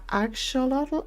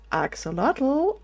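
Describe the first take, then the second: First: It is said with a sh sound. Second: It is said without a sh sound. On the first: This imitates a very Spanish pronunciation. "They, they they put like a sh sound in it" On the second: This is the speaker's own usual pronunciation. "when I pronounce this axolotl, I thought it sounds kind of right"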